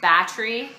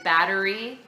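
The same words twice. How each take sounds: First: It is said with an unusual, Quebec-influenced pronunciation. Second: It is said with the ordinary, usual pronunciation. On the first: This is how someone from Quebec says it. "He says battery" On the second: This is the common way to say it. "instead of battery"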